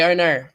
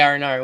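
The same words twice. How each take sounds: First: It is said with no R-like sounds. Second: It is said with added R-like sounds. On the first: This is how the accent really sounds. The speaker calls it right. "We say "oh no." ... There's no R's there" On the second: This is how outsiders mock the accent. The speaker calls it wrong. "We never say"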